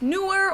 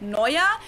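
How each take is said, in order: First: The first syllable sounds like English 'new'. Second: The first syllable sounds like 'noy'. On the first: The speaker calls it wrong. "a lot of people think it's pronounced newer" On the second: The speaker calls it right. "but it's Neuer"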